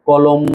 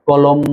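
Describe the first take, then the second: Both takes have the same delivery.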